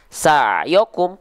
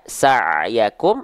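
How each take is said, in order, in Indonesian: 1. Vokal setelah ya adalah O. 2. Vokal setelah ya adalah A. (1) "atau dibaca dengan vokal O" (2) "dibaca dengan vokal A"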